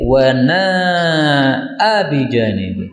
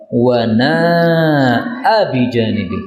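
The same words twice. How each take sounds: First: Slow recited Wa na'a bi janibi with the vowel order swapped; slow tilawah of the variant Wa na'a bi janibi; reversed reading. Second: Slow recited wa na'a bi janibi, na'a short; slow tilawah of wa na'a bi janibi; Quran recitation. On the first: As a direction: recite the alternate dialect form slowly. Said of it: "Tapi boleh juga dibalik". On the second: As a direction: chant it like Quran reading, short na. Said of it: "Biasanya kan nanya pendek kan?". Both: Shown as a demonstration.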